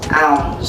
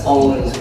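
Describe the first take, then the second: First: The word sounds like 'ounce', ending in s. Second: The word sounds like 'owns', ending in z. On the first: The speaker calls it right. "That is pronounced as ounce" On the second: The speaker calls it wrong. "that is not pronounced as owns"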